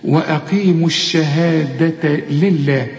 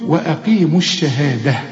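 First: Slow وأقيموا الشهادة لله with ة sounded as a clear t; ta marbuta linked. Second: وأقيموا الشهادة ending in a breathed h; ta marbuta paused. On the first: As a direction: link الشهادة to لله through a voiced ta. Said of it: "اظهرها إنها تاء". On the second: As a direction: stop on الشهادة with final ة said as ه. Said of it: "إذا وقفت التاء المربوطة بترجع". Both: Shown as a demonstration.

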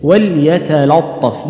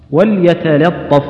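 First: وليتلطف slow, with the second l darkened before the ط; heavy second lam. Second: وليتلطف recited slowly with two thin l sounds; both lams light. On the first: Quran teacher showing people's common mistake, heavy second lam. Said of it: "الخطأ في اللام الثانية". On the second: Quran teacher modelling a word from al-Kahf, light lams. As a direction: stretch وليتلطف out, keeping each lam fronted. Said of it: "يعني رقق". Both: Shown as a demonstration.

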